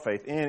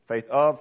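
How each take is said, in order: First: "in" set against "of", end lifted; stress on IN. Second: "of" held up for comparison; stress on OF. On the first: Preacher showing two English phrasings, stress on "in". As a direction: lean on "in" with a slight rise. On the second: Preacher showing two English phrasings, stress on "of". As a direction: set "of" out firmly. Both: Shown as a demonstration. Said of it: "It sounds different in English".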